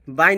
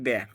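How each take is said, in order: First: The vowel sounds like 'eye'. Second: The vowel sounds like 'ay'. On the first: The speaker calls it wrong. "बाई नहीं बोल के" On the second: The speaker calls it right. "इसको मिलेंगे बे"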